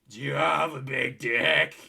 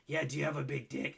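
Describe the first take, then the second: First: It is said imitating the woman's voice. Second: It is said in the speaker's own voice.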